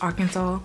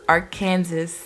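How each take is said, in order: First: It is said with its standard pronunciation. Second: It is said the way it is spelled. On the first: The speaker calls it right. "Arkansas is pronounced Arkansas" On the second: The speaker calls it wrong. "My brain always reads it as Arkansas"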